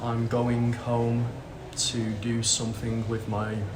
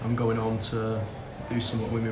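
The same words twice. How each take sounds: First: Every sound is said fully and carefully. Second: Sounds like G and H are dropped. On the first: "that would be the correct pronunciation" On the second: "or I'd say"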